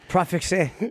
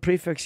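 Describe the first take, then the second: First: It is said with a French-style ending sound. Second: It is said like the plain English word prefix. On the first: "there's a French pronunciation of it that we're butchering" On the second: "I call it prefix"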